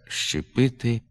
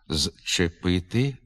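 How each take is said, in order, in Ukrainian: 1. Слово починається на звук «ш». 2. Слово починається на дзвінкий звук «з». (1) "а вимовляється" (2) "пишеться"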